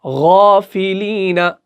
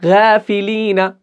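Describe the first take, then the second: First: गौफिलीना with a thick, full-mouth ghain, slowly; heavy ghain. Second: गाफिलीना with a light G instead of the throaty ghain, slowly; thin wrong reading. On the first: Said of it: "मुंह भर के हम इसको पढ़ते हैं". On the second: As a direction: show गाफिलीना as the mistake. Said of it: "बारीक पढ़ने लगे". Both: Shown as a demonstration.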